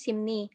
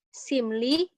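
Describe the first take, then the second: First: The second syllable begins with an n sound. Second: The second syllable begins with an l sound. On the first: This is how it is actually read. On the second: This is how it is written.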